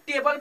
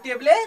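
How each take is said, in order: First: The word ends on the L with no vowel. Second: An extra vowel is sounded after the final L. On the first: The speaker calls it right. "इसे क्या पढ़ेंगे, टेबल पढ़ेंगे" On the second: The speaker calls it wrong. "इसे टेबले नहीं कहेंगे"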